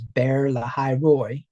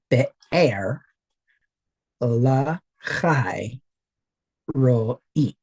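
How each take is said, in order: First: The name is said with an American pronunciation. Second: The name is said with a Hebrew pronunciation. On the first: The speaker calls it wrong. "the whole American pronunciation of the thing" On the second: The speaker calls it right. "pronounce it correctly"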